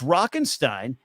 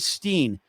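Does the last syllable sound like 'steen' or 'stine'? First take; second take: stine; steen. First: The last syllable is said like 'stine'. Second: The last syllable is said like 'steen'. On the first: The speaker calls it right. "It's Rockenstein" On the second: The speaker calls it wrong. "I would say Steen every time"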